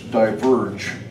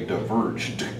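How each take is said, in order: First: The word ends without a final D sound. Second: The word ends with a final D sound. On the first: The speaker calls it wrong. "you forgot to pronounce the final D at the end of a simple past" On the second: The speaker calls it right. "there needed to be a D sound"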